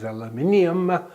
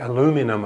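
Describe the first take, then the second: First: The word is said with five syllables. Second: The word is said with four syllables. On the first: This is the correct name. The speaker calls it right. "its correct name is aluminium" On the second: This is the American way of saying it. The speaker calls it wrong. "the Americans say aluminum"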